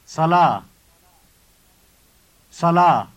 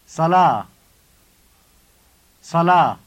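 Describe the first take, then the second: The two takes are said the same way.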